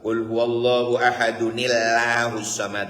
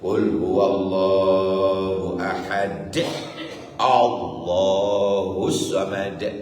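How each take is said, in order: First: Ahad runs into Allahu with an added n sound. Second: Ahad stops cleanly before a separate Allahus samad. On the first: The speaker calls it wrong. "kemenyek. Makruh hukumnya" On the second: The speaker calls it right. "Cara bacanya begitu"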